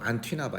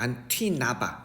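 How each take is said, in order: First: It is said in a flat, ordinary way. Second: It is said crisply, with exaggerated energy. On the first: The speaker calls it wrong. "이게 아니라" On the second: The speaker calls it right. "이렇게 해줘야 돼"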